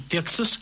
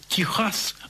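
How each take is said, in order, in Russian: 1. Средний согласный — звук ks. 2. Средний согласный — горловой звук kh. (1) "а не" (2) "Мы продолжаем говорить"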